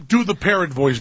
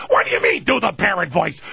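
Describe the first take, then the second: First: Said in the usual way. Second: Mock-outraged screechy comedian impression; Gilbert Gottfried. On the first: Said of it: "people go up to Gilbert Gottfried and go". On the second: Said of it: "And he goes".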